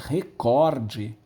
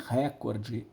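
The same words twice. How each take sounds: First: The stress is on the second syllable. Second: The stress is on the first syllable. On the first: The speaker calls it right. "é recorde" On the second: The speaker calls it wrong. "Não é recorde ... recuou a sílaba tônica de cor para ré"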